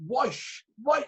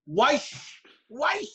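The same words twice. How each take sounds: First: "Wife" pitched high, aiming at a clearer "wash"; second, better attempt. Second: Put-on high, barked "Wife" in Shankill Road accent. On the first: Player retrying the machine command, "Wife" said higher and more carefully. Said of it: "Say it, say it better". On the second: Player commanding his washing machine, mock Shankill Road accent. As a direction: imitate a thick Shankill Road "Wife", pitched up. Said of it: "the wee Shankill Road accent".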